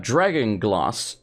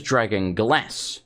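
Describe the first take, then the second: First: Glass with a long "ah", as "glahss"; British long A. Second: Glass with a flat short A as in "cat"; slowly, glass rhyming with "mass"; American short A. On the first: Shown as a demonstration. Explaining Sam's line, glass with the British long A. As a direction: open the vowel of glass to "ah". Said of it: "You're British". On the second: Retold or imitated. Mimicking the character Sam, glass with a short American A. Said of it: "Why would you say glass?".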